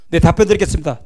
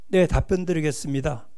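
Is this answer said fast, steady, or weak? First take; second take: fast; weak. First: It is said quickly and hurriedly. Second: It is said in a weak, soft voice. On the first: The listener cannot follow what is said. "빠른 거, 그죠? 못 알아듣습니다" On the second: The speaker seems to lack will and confidence. "목소리가 힘이 없어요"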